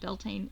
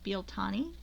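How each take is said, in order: First: It is said with an American pronunciation. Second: It is said with an Irish pronunciation. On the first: The speaker calls it wrong. "Americans who ruin everything by saying it wrong. Call it Beltane. It's not Beltane" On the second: The speaker calls it right. "It's Bealtaine"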